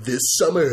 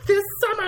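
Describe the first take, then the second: First: Epic trailer voice. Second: Put-on very high, squeaky little-girl trailer voice; sister's trailer imitation. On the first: Shown as a demonstration. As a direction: do your own epic movie voice. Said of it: "my own version of the movie". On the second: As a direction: mimic a kid attempting the epic voice. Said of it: "my sister always goes like".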